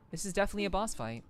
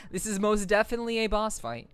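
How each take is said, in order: First: Said in the usual way. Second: Laughing through the words. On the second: Real, not acted. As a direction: chuckle while saying it. Laughs at the boss fight.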